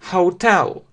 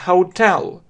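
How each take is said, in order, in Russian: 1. Ударение на последнем слоге. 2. Ударение на последнем слоге.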